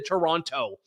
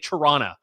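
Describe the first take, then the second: First: The second T is clearly pronounced. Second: The second T is dropped. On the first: The speaker calls it wrong. "I did the Ameri- I did. I did the Toronto" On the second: The speaker calls it right. "you're supposed to say Toronto. I never pronounced the second T"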